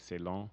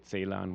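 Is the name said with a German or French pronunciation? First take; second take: French; German. First: It is said the French way, soft C. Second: It is said the German way, hard C.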